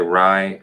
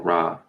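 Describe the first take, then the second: First: The vowel sounds like 'eye'. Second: The vowel sounds like 'ah'. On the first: "it can be pronounced Rye with an I" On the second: "you can pronounce it with an A"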